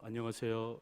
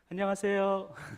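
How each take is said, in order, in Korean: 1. 이 인사는 낮고 굵은 목소리로 말해요. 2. 이 인사는 높게 올려서 말해요. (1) "목소리 깔고 안녕하세요 이렇게 인사하지 말고" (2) "도레미파솔 솔 톤으로 안녕하세요 이렇게 인사해야 훨씬 더 정겹다고 합니다"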